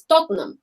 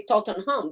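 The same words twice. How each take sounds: First: "Tottenham" squeezed to TOT-num; local pronunciation. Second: "Tottenham" in three syllables, TOT-ten-ham; foreign pronunciation. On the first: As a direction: drop the h and middle vowel of "Tottenham". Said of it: "that's how they say it". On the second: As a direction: sound out every syllable of "Tottenham". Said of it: "foreign, would say". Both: Shown as a demonstration.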